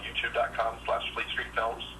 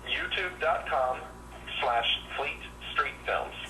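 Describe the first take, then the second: First: The address is spoken at a fast pace. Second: The address is spoken at a slower pace. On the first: The speaker calls it wrong. "I talk a little fast sometimes" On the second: The speaker calls it right. "say that a little bit slower"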